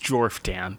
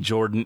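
First: The name is said with an f sound. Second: The name is said with no f sound. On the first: "That's how you spelled it. That's how I will pronounce it" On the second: "he wants the PH to be silent"

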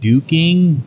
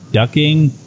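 First: The vowel is a long 'oo' sound. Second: The vowel is a short 'uh' sound. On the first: This is the older Irish form of the word. "in Ireland they pronounced it duking" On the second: This is the usual form of the word. "in the actual pronunciation it's ducking"

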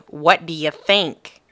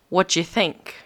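First: It is said in an American accent. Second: It is said in a British accent. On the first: "instead of" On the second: "I did a British accent the entire time. It kind of was slipping back into my speech"

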